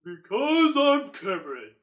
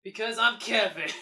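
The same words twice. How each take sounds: First: Slow, pushed-down deep voice. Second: Loud declaration. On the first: Shown as a demonstration. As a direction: drag it out low and booming. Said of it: "put more bass into it". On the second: Pretend. Deep-voice Kevin bit.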